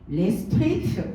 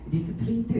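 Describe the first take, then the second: First: The name is said with an English-style accent. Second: The name is said plainly, Korean style. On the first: "이분은 막 레스트레이트 이렇게 하시더라고요" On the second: "저는 간단하게 이렇게 하거든요"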